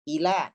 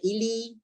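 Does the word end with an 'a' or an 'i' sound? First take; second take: a; i. First: The word ends with an 'a' vowel. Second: The word ends with an 'i' vowel. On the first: The speaker calls it right. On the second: The speaker calls it wrong.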